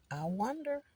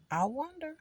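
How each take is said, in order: First: A soft, higher musing wonder. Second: "wonder" lifted high then falling away; sing-song musing. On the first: Alone in the car, wondering aloud softly. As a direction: muse aloud, half to herself. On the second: Alone in the car, sing-song musing to herself. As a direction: float "wonder" up high and let it drop. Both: Shown as a demonstration. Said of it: "repeats musing in varied tunes".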